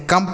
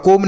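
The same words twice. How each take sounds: First: कम with a short "uh" vowel; correct reading. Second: कोम with a long O vowel; wrong reading. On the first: Teacher giving children the proper reading of come, कम with short "uh". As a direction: say कम like "kum", no O sound. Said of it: "कम पढ़ेंगे". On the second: Teacher showing children a misreading of come, कोम with long O. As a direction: say कोम as spelt, rhyming with "home". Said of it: "आप कोम नहीं पढ़ सकते". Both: Shown as a demonstration.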